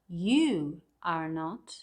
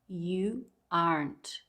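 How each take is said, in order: First: Each word is said separately, in full. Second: The last two words are merged into one syllable.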